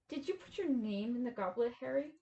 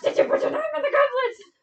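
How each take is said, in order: First: It is asked calmly and softly. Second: It is asked aggressively and loudly.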